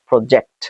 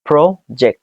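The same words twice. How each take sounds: First: The stress is on the second syllable. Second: The stress is on the first syllable. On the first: "নাকি জেক্টে চাপ দিবেন" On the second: "প্রথমে pro এ চাপ দিবেন"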